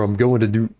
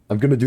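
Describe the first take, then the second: First: Going to is said fully as two separate words. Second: Going to is reduced to one quick word, gonna. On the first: The speaker calls it wrong. "It feels so weird" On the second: The speaker calls it right. "I always say gonna"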